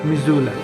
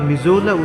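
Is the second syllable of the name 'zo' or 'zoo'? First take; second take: zoo; zo. First: The second syllable sounds like 'zoo'. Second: The second syllable sounds like 'zo'. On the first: This is how local people say it. "স্থানীয়দের কাছে এই উচ্চারণটা হচ্ছে মিজুলা" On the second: This is how an outsider says it. "আমি মিসৌলা বা মিজোলা উচ্চারণ করছি"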